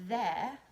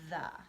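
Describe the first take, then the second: First: The vowel is said as a clear 'eh'. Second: The vowel is said as a short 'uh'. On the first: The speaker calls it wrong. "It's not the" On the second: The speaker calls it right. "the E says uh, like you in the word up"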